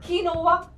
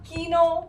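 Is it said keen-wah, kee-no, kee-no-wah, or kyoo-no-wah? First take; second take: kee-no-wah; kee-no. First: It is said with three syllables, kee-no-wah. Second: It is said with two syllables, kee-no.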